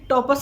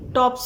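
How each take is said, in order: First: A short vowel is inserted between p and s. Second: The p and s run together without a vowel. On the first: The speaker calls it wrong. "टॉपस नहीं होते" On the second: The speaker calls it right. "टॉप्स होते हैं"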